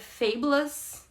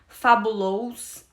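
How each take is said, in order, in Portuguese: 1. A terminação é um 'us' curto e reduzido. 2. A terminação é pronunciada como um 'ous' pleno. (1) "esse ous do final não é ous" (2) "eu falava fabulous e não é"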